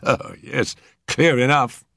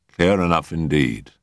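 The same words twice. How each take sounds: First: Higher, pleased with himself; a self-satisfied policeman's verdict; smug constable. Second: Said in the usual way. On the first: Acted.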